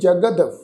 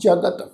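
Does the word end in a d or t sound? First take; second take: d; t. First: The word ends in a d sound. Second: The word ends in a t sound. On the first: "ਦੱਦਾ ਅੱਖਰ ... ਤਾਂ ਇਸ ਸ਼ਬਦ ਦਾ ਉਚਾਰਨ ਕਰਾਂਗੇ" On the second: "ਤੱਤੇ ਅੱਖਰ ਦੇ ਨਾਲ"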